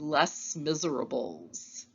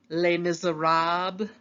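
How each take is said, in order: First: It is said with English spelling pronunciation. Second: It is said with French pronunciation. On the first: The speaker calls it wrong. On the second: The speaker calls it right.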